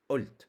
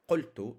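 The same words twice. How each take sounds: First: قلت said as 'ult, the qaf turned into a glottal stop; qaf as hamza. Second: قلت said with a clear q sound, standard Arabic; standard qaf. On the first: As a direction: dialect style: drop the q of قلت to a hamza. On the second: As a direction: qaf pronounced fully as q in قلت. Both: Shown as a demonstration. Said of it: "pronounced as a uh, like a hamza".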